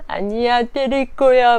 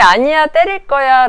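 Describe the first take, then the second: First: Imitating a defiant four-year-old, higher; defiant toddler. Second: A louder, higher mock toddler protest; loud defiant toddler. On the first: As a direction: pout it out like a stubborn toddler. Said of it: "막 이래요". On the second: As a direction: shout it like a stubborn child. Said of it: "라는 얘기는".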